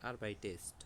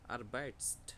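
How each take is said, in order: First: An extra vowel comes before the ending. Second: The word ends in a tight consonant cluster. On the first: The speaker calls it right. "সুন্দর না" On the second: The speaker calls it wrong. "উচ্চারণটা একটু কষ্ট কষ্ট হচ্ছে না"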